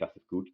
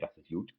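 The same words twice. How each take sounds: First: Gut begins with a hard G sound. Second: Gut begins with a J sound. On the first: This is the standard way of saying it. "instead of saying" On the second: This is how people in Cologne say it. "they say ... all of their G's they say is J's"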